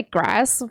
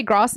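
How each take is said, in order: First: Grass with a short flat a, as in cat. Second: Grass with a long broad a, like "grahss"; posh grass. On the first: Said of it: "they don't say grass anymore". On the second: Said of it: "they say grass". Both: Shown as a demonstration.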